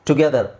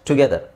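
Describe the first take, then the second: Both takes have the same delivery.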